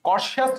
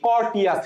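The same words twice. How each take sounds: First: "কর্টিয়াস" said with a sh sound, kor-shi-as; correct pronunciation. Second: "কর্টিয়াস" read as kort-i-as with hard T; spelling pronunciation. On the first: Teacher gives the correct pronunciation, "কর্টিয়াস" as kor-shi-as. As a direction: soften the T of "কর্টিয়াস" into sh. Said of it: "সঠিক উচ্চারণ". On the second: Teacher reads for spelling, "কর্টিয়াস" as kort-i-as. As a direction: sound the written T in "কর্টিয়াস". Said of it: "but আমরা পড়বো কি?". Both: Shown as a demonstration.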